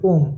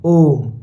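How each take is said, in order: First: ओम with a brief, unstretched ओ; short Om. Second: ओम with the ओ held long; long-drawn Om. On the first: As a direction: say ओम in one quick beat. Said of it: "ऐसे नहीं बोलते ना". (ओम छोटा, बिना खींचे) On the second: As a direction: draw out the ओ of ओम before closing on m. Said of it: "ऐसे लंबा खींचते हैं". (ओम को लंबा खींचकर) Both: Shown as a demonstration.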